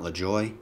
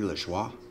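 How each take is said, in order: First: The surname is said with an English pronunciation. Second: The surname is said with a French pronunciation. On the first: The speaker calls it wrong. "not LeJoy" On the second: The speaker calls it right. "I'm assuming that's a French pronunciation"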